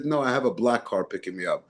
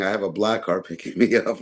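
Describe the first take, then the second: First: Said in the usual way. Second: Laughing quote. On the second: Retold or imitated. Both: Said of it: "he loved saying".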